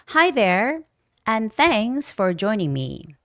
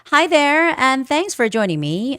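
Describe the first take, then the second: First: It is read at a slow pace. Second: It is read at a faster pace. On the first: "still reading slowly" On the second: "this is the normal, natural version"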